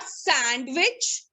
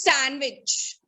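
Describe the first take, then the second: First: "sandwich" with the D sounded, sand-wich; wrong pronunciation. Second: "sandwich" said slowly as san-wich, falling; silent D. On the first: Teacher showing the class the mistake, sandwich with a voiced D. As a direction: sound the D in sandwich, voice lifting at the end. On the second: Teacher correcting the class, sandwich with silent D. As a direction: drop the D from sandwich, slow and careful. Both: Shown as a demonstration. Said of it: "you have to silent the D".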